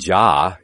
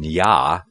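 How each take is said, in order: First: The word begins with a J sound. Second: The word begins with a Y sound. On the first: The speaker calls it wrong. "So it wouldn't have been Jah" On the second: The speaker calls it right. "it would have been Yah"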